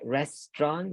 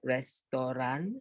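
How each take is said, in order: First: It is pronounced in standard English style. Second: It is pronounced in an Indonesian style. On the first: The speaker calls it right. "Restaurant sounds like restaurant" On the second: The speaker calls it wrong. "not like restaurant ... that's the Indonesian version"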